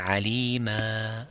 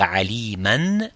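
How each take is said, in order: First: The word ends with a long a vowel. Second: The word ends with an n sound. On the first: The speaker calls it right. "on dit alima avec le alif" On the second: The speaker calls it wrong. "au lieu de dire aliman"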